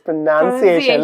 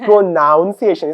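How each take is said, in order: First: The second syllable sounds like 'nun'. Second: The second syllable sounds like 'noun'. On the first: The speaker calls it right. "It's প্রোনাউন্সিয়েশন" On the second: The speaker calls it wrong. "It's not প্রোনাউন্সিয়েশন"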